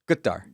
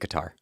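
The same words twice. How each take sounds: First: The word begins with a G-like sound. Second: The word begins with a K-like sound. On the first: This is how locals say it. "the Qataris say it like a G" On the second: This is how Americans say it. "so we're just going to say"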